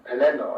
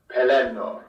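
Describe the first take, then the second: First: The final vowel is kept short. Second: The final vowel is drawn out long. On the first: "is certainly acceptable and probably best" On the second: "the long ends in names like"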